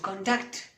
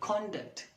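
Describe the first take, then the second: First: The stress is on the second syllable. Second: The stress is on the first syllable. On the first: The word is used as a verb. "The stress is on the second syllable" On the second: The word is used as a noun. "If it's a noun, the stress is on the first syllable"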